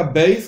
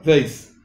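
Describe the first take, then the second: First: "beis" with a stressed stop b; hard B in beis. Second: "veis" with a weak, continuous v; soft V in veis. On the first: Teacher explains the letter with dogesh, hard B. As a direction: press the lips shut to launch "beis". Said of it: "B larga". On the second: Teacher explains the letter without dogesh, soft V. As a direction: let "veis" begin on v, not a stop. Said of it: "B corta". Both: Shown as a demonstration.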